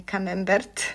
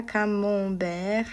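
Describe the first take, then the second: First: Camembert said kamɛmbɛrt, with m and a hard final t; Polish camembert. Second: Camembert said kamɔ̃bɛʀ, nasal vowel, silent t; French camembert, nasal, no final t. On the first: Teacher showing the wrong Polish camembert. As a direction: Polish camembert, every letter sounded. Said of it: "a nie camembert". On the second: Teacher contrasting French camembert with the Polish way. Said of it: "uwaga, camembert, a nie camembert". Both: Shown as a demonstration.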